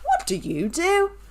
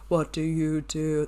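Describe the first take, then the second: First: It is asked in a friendly way. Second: It is asked in a creepy way.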